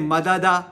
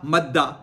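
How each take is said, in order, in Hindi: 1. दो अलग अक्षर हैं, बीच में एक स्वर है। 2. दोनों व्यंजन मिलकर एक दोहरा व्यंजन बन जाते हैं।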